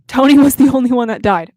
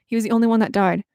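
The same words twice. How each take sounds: First: Loud, aggrieved protest; emphatic outcry. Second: Said in the usual way. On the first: Real, not acted. Fan protesting her favorite character's death, loud outcry. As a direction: belt it out in fan outrage. Repeats outburst after muting herself.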